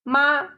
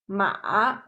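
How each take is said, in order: First: The pitch stays high and level. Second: The pitch dips low, then rises. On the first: It means mother. "using the 一声 first tone" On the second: It means horse. "using the third tone"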